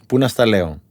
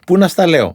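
First: Said in the usual way. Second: «Πού να στα λέω» ψηλότερα και πιο δυνατά, με έμφαση στο «να»; ξεσπάει χαρούμενα «Πού να στα λέω»; ενθουσιασμένα. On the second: Retold or imitated. (ενθουσιασμένη φίλη, πιο ψηλά και πιο δυνατά) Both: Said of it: "Ενθουσιάστηκαν".

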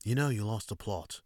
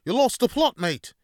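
First: Put-on calmer second go at a British accent; understated British accent imitation; Gordon Ramsay retry. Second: Shouted, much higher bad British accent; loud, high, hammy British accent rant; Gordon Ramsay yell. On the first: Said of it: "Let me try that again". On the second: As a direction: bellow it like an angry TV chef in a British accent. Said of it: "as, uh, Gordon Ramsay would say".

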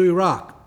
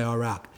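First: Said in the usual way. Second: "Iraq" said the American way, an easy lighter aside; American pronunciation. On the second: Shown as a demonstration. Preacher mimics how Americans say "Iraq", lower and softer. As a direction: pronounce "Iraq" the way Americans do, softly in passing. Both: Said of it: "or as Americans say".

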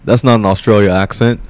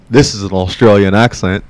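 First: Said in the usual way. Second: Demonstrating an Australian accent; a put-on Aussie accent. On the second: Shown as a demonstration. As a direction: show off your Australian accent.

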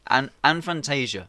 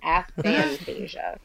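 First: Fantasia said with an N like the film; slow Fantasia with the N sound; mispronounced Fantasia, said slowly; wrong pronunciation. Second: Aphantasia said slowly and clearly, no N; slow careful Aphantasia without the N; teaching the right Aphantasia; correct pronunciation. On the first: Real, not acted. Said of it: "Why are you putting an N in it?". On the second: Shown as a demonstration. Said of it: "No fins in it".

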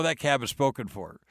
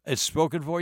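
First: Said in the usual way. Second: "spoken for" raised as a puzzled question; surprised echo question. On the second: Retold or imitated. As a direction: echo "spoken for" back in disbelief, pitched up. Echoes driver's news as question.

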